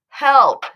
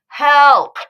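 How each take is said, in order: No difference in how they are said.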